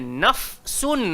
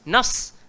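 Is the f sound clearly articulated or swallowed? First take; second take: articulated; swallowed. First: The f sound is clearly articulated before the s. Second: The f sound runs straight into the s. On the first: The speaker calls it right. "Dia kena nafsun" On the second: The speaker calls it wrong. "Ramai orang fa terus masuk dekat dalam sin"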